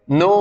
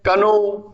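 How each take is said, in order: First: नो starting straight on the n; correct know. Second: कनो with the K sounded; wrong reading of know. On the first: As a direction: say नो with the K silent. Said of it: "के silent हो जाता है". (नो, K silent सही उच्चारण) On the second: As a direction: say कनो with "ka" before "no". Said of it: "बोल देते हैं". (कनो, K बोलकर गलत उच्चारण) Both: Shown as a demonstration.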